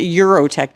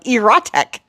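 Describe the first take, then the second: First: The word begins with a 'you' sound. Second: The word begins with a short 'eh' sound. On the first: "I was pronouncing it Eurotech before, but it doesn't have a U in it" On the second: "I always pronounce this wrong"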